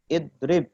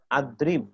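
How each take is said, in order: First: The word begins with an i vowel. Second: The word begins with an a vowel. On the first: The speaker calls it right. "Fi'il amr juga sama" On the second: The speaker calls it wrong. "atau adrib"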